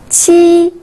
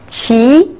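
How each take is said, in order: First: The pitch stays high and level. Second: The pitch rises from mid to high.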